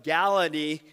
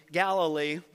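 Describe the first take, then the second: First: Galilee tripped into "Galidee", with a d for the second l; a fumbled Galilee said as "Galidee"; tongue slips on Galilee as "Galidee"; slipped pronunciation. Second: Galilee said cleanly as "Gal-i-lee", with both l sounds clear; fixing it: "Galilee" with a proper l; a careful, corrected Galilee, every l in place; corrected pronunciation. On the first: Stumbles on the name, repeats. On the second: Corrects the slipped name. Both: Real, not acted.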